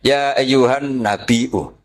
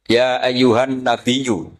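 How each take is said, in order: First: "nabiyyu" recited slowly as nabi-'u; hamzah kept. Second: "nabiyyu" recited slowly with a gliding y; hamzah softened to ya. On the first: Teacher quotes Imam Nafi, glottal hamzah in nabiyyu. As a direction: put a glottal catch before the u of "nabiyyu". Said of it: "Sehingga dia baca tetap". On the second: Teacher quotes Imam Asim, gliding ya in nabiyyu. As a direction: say "nabiyyu" slowly, no glottal catch. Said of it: "menghufif hamzah menjadi ya". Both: Shown as a demonstration.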